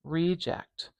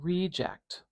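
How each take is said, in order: First: The stress is on the first syllable. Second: The stress is on the first syllable.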